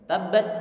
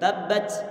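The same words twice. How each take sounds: First: The final t releases only a slight breath. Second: The final t ends in a strong s-like hiss. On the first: The speaker calls it right. "Dikit aja angin yang keluar" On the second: The speaker calls it wrong. "Enggak boleh begini, ... Ini sudah ada huruf sinnya"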